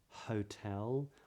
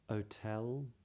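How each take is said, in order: First: It starts with a breathy H sound. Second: It starts straight on the vowel, no H. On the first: "the H is pronounced" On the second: "would make those words sound more like"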